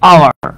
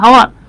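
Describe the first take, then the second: First: The word starts with a vowel, no h. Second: The word starts with an h sound. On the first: The speaker calls it right. "এইটার উচ্চারণ হচ্ছে আওয়ার" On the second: The speaker calls it wrong. "কিন্তু আসলে কি হাওয়ার, no"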